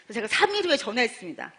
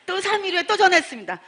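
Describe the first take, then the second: First: Said in the usual way. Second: 또 hit higher and louder both times; stressed 또. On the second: Real, not acted. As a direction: lean hard on each 또. Repeated follow-up call line.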